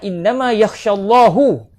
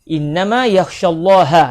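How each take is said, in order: First: The word Allah ends with a 'u' vowel. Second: The word Allah ends with an 'a' vowel. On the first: "bukan innama yakhsyallaha" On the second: "kita baca secara mansub eh? dengan baris atas pada lafzul jalalah"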